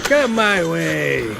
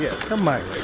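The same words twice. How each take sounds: First: Slow, drawn-out and a bit louder; slowly luring an enemy closer; taunting invitation. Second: Said in the usual way. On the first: Real, not acted. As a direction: coax the enemy in, stretching every word.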